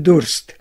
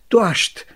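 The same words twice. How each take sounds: First: The s before t sounds like s. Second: The s before t sounds like sh. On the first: This is the standard form. "für" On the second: This is the local dialect form. "Nach R wird aber St gesprochen"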